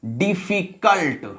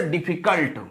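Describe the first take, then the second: First: "डिफिकल्ट" slowly split as डि-फि-कल्ट; broken into syllables. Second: Said in the usual way. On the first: Shown as a demonstration. Teacher counting syllables for class, "डिफिकल्ट" broken up slowly. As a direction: draw out each syllable of "डिफिकल्ट". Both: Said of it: "जिनको तोड़कर".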